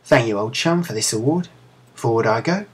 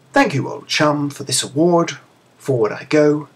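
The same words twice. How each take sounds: First: Put-on a light Cockney accent, rising at each phrase end; Cockney chimney sweep. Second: Put-on a slightly higher, lightly posh British accent on "Thank you, old chum". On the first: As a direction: chirp it like a London chimney sweep. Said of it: "made her sound like a chimney sweep". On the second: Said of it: "in his best British accent".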